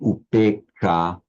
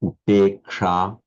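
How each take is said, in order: The two takes are said the same way.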